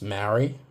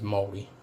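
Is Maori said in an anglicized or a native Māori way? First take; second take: anglicized; native. First: The word is said in an anglicized way. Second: The word is said in the native Māori way. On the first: The speaker calls it wrong. "some people pronounce Maori" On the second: The speaker calls it right. "the proper pronunciation is Māori"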